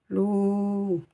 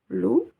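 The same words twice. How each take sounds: First: The vowel after l is long. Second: The vowel after l is short. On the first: "La lettre Waw qui sert ici de voyelle longue OU" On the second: "La lettre Lem avec sa voyelle OU"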